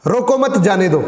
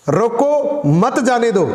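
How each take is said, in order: First: No break after "रोको"; मत joined to रोको. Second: Slow, higher "रोको", break, then "मत जाने दो"; stress on रोको. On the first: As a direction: run "रोको मत" together, then "जाने दो". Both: Shown as a demonstration. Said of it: "किस शब्द पे कितना जोर लगा है".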